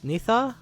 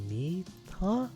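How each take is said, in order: First: The middle consonant is a th sound. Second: The middle consonant is a plain t sound. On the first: The speaker calls it right. "Yeah, it's it's a thaw" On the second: The speaker calls it wrong. "Is that how you pronounce it?"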